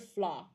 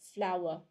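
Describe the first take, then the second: First: The word is said as one syllable. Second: The word is said as two syllables. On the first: The speaker calls it wrong. "it's never just one um one syllable though. It's never flaw" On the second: The speaker calls it right. "you have to pronounce it in two syllables"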